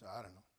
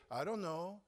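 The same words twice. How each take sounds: First: "I don't know" dropped low and quiet, flat and dismissive; flat indifferent shrug. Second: "I don't know" said higher and lifted, a real undecided question; eager uncertain reply. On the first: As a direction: mumble "I don't know" like it doesn't matter at all. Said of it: "It was". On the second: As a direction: say "I don't know" as if you're honestly torn. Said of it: "She didn't say". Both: Shown as a demonstration.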